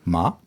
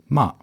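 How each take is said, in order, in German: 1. Die Tonhöhe steigt von tief nach hoch. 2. Die Tonhöhe fällt scharf und kurz. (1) "Von unten nach oben" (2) "der letzte Ton ist der 4. Ton"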